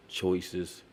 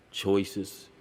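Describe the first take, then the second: No difference in how they are said.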